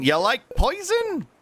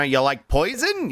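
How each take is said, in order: First: High, slow teasing voice; high silly voice. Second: Said in the usual way. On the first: Shown as a demonstration. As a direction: squeak it out slowly. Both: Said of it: "repeated in new voices".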